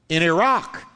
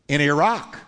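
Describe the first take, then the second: Both takes have the same delivery.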